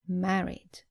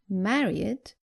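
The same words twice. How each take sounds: First: The ending adds no extra syllable. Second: The ending is an extra 'id' syllable. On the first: The speaker calls it right. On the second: The speaker calls it wrong.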